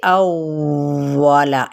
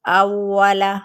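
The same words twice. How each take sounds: First: अव्वला drawn out slowly with nasal ghunna, the wrong way; wrong drawn-out reading. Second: अव्वला said quickly, double व snapped with no ghunna; quick correct reading. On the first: Teacher showing students the wrong way, drawn out slowly. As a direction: stretch अव्वला long and nasal, as the mistake. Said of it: "इस तरीके से नहीं पढ़ना". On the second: Teacher showing students the right way, quick and crisp. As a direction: clip अव्वला short and firm. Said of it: "जल्दी से". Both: Shown as a demonstration.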